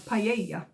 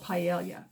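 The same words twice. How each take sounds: First: The word is given a Spanish-style pronunciation. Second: The word is given an English-style pronunciation. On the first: The speaker calls it right. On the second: The speaker calls it wrong.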